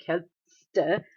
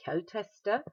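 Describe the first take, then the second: First: Kälteste without its middle E, as kält-ste; missing middle E. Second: Said in the usual way. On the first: Shown as a demonstration. Teacher shows why the extra E is needed, kälteste said without it. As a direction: break kälteste after the t, straight into ste. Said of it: "you can't say kälteste without moving your mouth". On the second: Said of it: "have to add an E in the middle".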